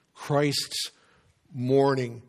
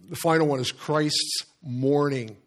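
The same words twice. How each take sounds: First: Christ's mourning spoken slowly, the two words parted by a long pause, each word set apart and weighed; Christ's ... mourning, each word on its own, falling at the end; slow, weighty stress on Christ's mourning. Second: Said in the usual way. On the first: Shown as a demonstration. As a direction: pause after Christ's, then lean hard into mourning with a falling tune.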